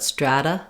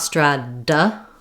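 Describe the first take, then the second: First: The middle consonant is one light tap. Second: The middle consonant is a hard, pressured D. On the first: The speaker calls it right. "but strata, ... Just one tap up" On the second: The speaker calls it wrong. "not strada with a lot of pressure"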